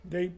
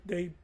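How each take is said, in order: No difference in how they are said.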